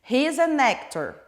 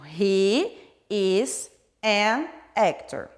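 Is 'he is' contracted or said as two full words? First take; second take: contracted; full. First: He and is are joined into one syllable. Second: He and is are said as separate words. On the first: This is the casual spoken form. "Isso seria mais comum na fala" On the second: This is the formal written form. "vai ser tudo separadinho"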